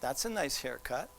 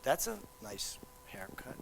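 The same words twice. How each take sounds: First: The compliment is said in a sincere tone. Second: The compliment is said in a sarcastic tone. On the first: The speaker likes the haircut. "Oh, he's ha he likes my haircut" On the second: The speaker does not like the haircut. "I don't really like that haircut"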